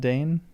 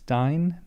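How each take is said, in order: First: The vowel sounds like 'ay'. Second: The vowel sounds like 'eye'. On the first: The speaker calls it wrong. "not Dane" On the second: The speaker calls it right. "It's Dine"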